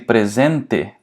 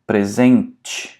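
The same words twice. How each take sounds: First: The final syllable is pronounced with a plain t. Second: The final syllable is pronounced with a ch sound. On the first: The speaker calls it wrong. "you can pronounce it like te ... that would sound very weird to a Brazilian" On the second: The speaker calls it right. "people actually say it like a ch ... that sounds much more natural"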